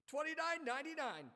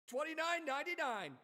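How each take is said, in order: The two takes are said the same way.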